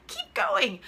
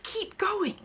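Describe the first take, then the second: First: Higher, brighter second keep going; said higher the second time; high encouraging push. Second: Said in the usual way. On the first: Shown as a demonstration. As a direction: cheer herself on to keep going.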